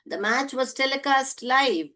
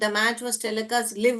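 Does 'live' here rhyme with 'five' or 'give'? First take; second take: five; give. First: 'Live' is said with a long i vowel. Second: 'Live' is said with a short i vowel. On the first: The speaker calls it right. "लाइव पढ़ोगे" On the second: The speaker calls it wrong. "लिव नहीं पढ़ोगे"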